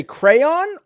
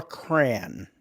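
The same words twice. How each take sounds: First: "crayon" in two full syllables, cray-on. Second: "cran" as one syllable, rhyming with can; one-syllable crayon. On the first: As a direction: draw out "crayon" as CRAY-ON, higher and louder. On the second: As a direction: squash crayon down to a single "cran". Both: Shown as a demonstration. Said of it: "Do you say crayon or cran?".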